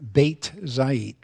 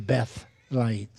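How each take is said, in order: First: The first word ends in a plain T sound. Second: The first word ends in a TH sound. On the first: "instead of saying" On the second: "it becomes a T H sound"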